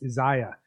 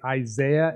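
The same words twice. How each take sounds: First: It is said in the African pronunciation. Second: It is said in the speaker's usual pronunciation. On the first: The speaker calls it right. "they say, no, it's Isaiah" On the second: The speaker calls it wrong. "I say Isaiah"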